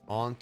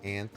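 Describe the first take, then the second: First: The word is said with a British pronunciation. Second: The word is said with an American pronunciation. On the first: "Aunt is more the British and some Canadian" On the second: "aunt is some Canadian and American"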